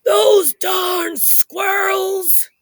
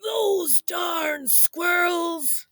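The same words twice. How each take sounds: First: Put-on high, slow cranky old-man shout; grumpy old man yell. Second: Put-on high, slow old-man shout for all to join; grumpy old man yell. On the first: Old man shouting at the squirrels, high cranky yell. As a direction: yell it like a grump shaking his fist. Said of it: "he shook his old man fist and he yelled". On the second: Shown as a demonstration. Storyteller leads kids in the old man's cranky cry. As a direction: lead the crowd in a cranky yell. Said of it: "Say it with me".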